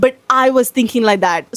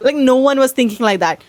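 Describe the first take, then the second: First: "I" stressed, then falling away. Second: "no one" lifted above the rest; stress on NO ONE. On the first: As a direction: lean on "I" as the lone exception. Contrasts herself with the others. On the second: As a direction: lean on "no one", setting them apart. Contrasts others with herself. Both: Real, not acted.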